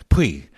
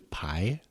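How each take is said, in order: First: The word is said like 'pwee'. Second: The word is said like 'pie'. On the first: The speaker calls it right. "Kristen Scott Thomas said, pui" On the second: The speaker calls it wrong. "I have been mispronouncing these lentils"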